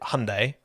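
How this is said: It is said with an American pronunciation. "Americans pronounce it Hyundai"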